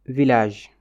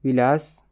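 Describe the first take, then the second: First: Village said the French way, vi-lazh; French pronunciation. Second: Village said the Pulaar way, wi-las; Pulaar pronunciation. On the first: Teacher models the French Village first. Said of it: "se prononce différemment". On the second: Teacher gives the Pulaar form of Village. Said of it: "woni wuro". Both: Shown as a demonstration.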